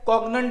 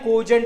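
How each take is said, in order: First: The middle consonant is a hard g sound. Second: The middle consonant is a soft j sound. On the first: The speaker calls it wrong. "कॉग्नंट नाही" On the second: The speaker calls it right. "कोजंट आहे"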